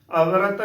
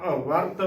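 First: ਅਵਰਤ as a-va-rat, light v and a vowel before t; three even syllables in ਅਵਰਤ, single v; undoubled v. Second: ਅਵਰਤ as av-vart, v held, r joined to t; doubled v. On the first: Teacher shows the wrong ਅਵਰਤ, v left undoubled. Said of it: "ਅਵਰਤ ਨਹੀਂ ਬੋਲਣਾ". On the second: Teacher models correct ਅਵਰਤ, v doubled. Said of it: "ਵਾਵੇ ਉੱਤੇ ਅਦਕ ਲੱਗੇਗੀ". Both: Shown as a demonstration.

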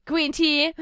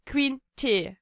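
First: "Green Tea" with an English "tea", like "tee"; English pronunciation. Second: "Green Tea" with "Tea" said like German "Tee"; German-style pronunciation. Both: Shown as a demonstration. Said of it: "wie das englische T wird wie Tee ausgesprochen".

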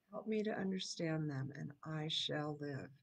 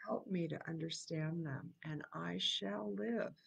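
First: Said in the usual way. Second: Whispered prayer. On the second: Shown as a demonstration. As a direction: breathe the words as a private prayer. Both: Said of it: "repeats the line".

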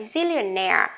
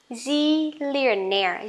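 First: Zillionaire at normal speed, stress on -naire; normal speed word. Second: Zillionaire said slowly, stress on -naire; slow model word. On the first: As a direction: say Zillionaire naturally. (đọc Zillionaire bình thường) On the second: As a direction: stretch Zillionaire for learners. (đọc chậm Zillionaire) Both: Shown as a demonstration. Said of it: "Lại nhá".

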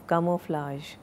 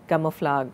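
First: CAMOUFLAGE ending in a soft zh, softly; KA-mo-flazh, soft ending on camouflage; correct camouflage. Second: CAMOUFLAGE ending in a hard G; kamo-FLAG, hard g closing camouflage; wrong camouflage. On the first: Teacher correcting the word, camouflage softly ended with zh. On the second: Teacher showing the mistake, camouflage ended with a hard g. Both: Shown as a demonstration. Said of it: "okay, not".

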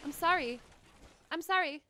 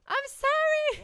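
First: Said in the usual way. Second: Louder, higher, drawn-out apology. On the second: Real, not acted. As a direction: blurt the apology out high and slow. Repeated apology turns loud.

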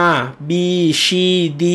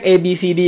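First: "R B C D" said as Italian "ah, bee, chee, dee"; name "R B C D" the Italian way, A as "ah" and C as "chee"; Italian letter names. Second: Said in the usual way. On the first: Shown as a demonstration. Tutor showing students Italian letters, "R B C D" as "ah, bee, chee, dee". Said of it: "เขาเรียก". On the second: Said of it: "เขาไม่เรียก A B C D".

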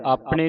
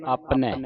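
First: ਆਪਣੇ ending in narrow "e"; ਆਪਣੇ with a single-lavan ending; wrong reading. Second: ਆਪਣੈ ending in open "ai"; ਆਪਣੈ with the double-lavan vowel; correct reading. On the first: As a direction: say ਆਪਣੇ as "aapne". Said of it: "ਨਹੀਂ ਪੜ੍ਹਨਾ". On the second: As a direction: say ਆਪਣੈ as "aapnai", falling. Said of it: "ਦੋ ਦਲਾਵਾਂ ਲੱਗੀਆਂ". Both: Shown as a demonstration.

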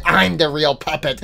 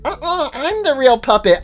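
First: Low, softer puppet voice; lower-voiced squabbling puppet; rival puppet. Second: High, insistent puppet voice; higher-voiced rival puppet; contradicting puppet. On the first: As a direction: counter the claim in a low voice. Other puppet answers lower.

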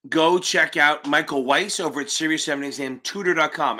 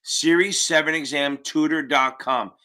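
First: Said quickly. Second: Slowed down, each word clear. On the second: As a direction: spell it out slowly for them. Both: Real, not acted. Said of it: "I know I say it quick".

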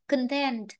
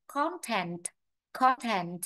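First: "content" stressed on the second syllable; con-TENT, the common misreading of "content"; wrong stress. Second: "content" stressed on CON; CON-tent, model reading of the noun "content"; stress on first syllable. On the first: Teacher quotes how many people misread it, wrong stress. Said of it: "rất nhiều người đọc là content". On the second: Teacher corrects a common misreading, stress on first syllable. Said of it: "Trọng âm nó rơi vào âm tiết một". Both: Shown as a demonstration.

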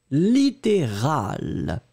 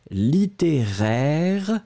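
First: Littéral slow, falling on "-al"; contrast pronunciation. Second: Littéraire slow, rising on "-aire"; contrast pronunciation. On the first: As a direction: say littéral slowly after littéraire. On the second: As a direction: say littéraire slowly, then its pair. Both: Shown as a demonstration. Teacher repeating the pair for clarity. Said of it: "bien prononcer les deux".

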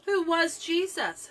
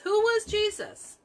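First: Said in the usual way. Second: Who was Jesus asked again, the word was pushed much higher; stressed repeat. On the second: Shown as a demonstration. Preacher presses his congregation, asking pointedly. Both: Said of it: "the question we follow here is".

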